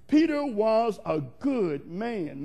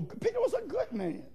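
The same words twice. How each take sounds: First: Slow, deliberate insistence; slow emphasis. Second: Much higher, lighter-weight aside; high-pitched aside. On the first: Preacher insists Peter was good, slow and emphatic. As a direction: draw out each word to insist on it. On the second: Preacher defends Peter to the church, high-pitched aside. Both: Real, not acted.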